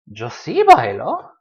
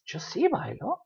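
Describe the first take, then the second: First: Answering a doubter firmly; emphatic reply. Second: Sí lifted high; emphatic reply. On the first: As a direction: stress on bailo, said slowly. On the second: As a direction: Yo sí bailo, sí raised and stressed, softer overall. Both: Shown as a demonstration. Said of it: "but it's the emphatic one".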